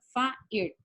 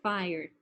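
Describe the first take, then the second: First: It is pronounced with Spanish vowel sounds. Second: It is pronounced with English vowel sounds. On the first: The speaker calls it wrong. "en español entonces yo acá diría fire" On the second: The speaker calls it right. "esto se pronuncia fire"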